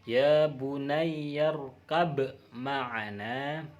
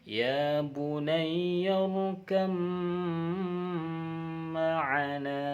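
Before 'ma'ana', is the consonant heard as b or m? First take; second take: b; m. First: A b sound is heard before ma'ana. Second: The b merges into an m before ma'ana. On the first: The speaker calls it wrong. "aslinya kalau tidak tahu itu baknya dibaca seperti ini" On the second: The speaker calls it right. "karena itu diidghamkan"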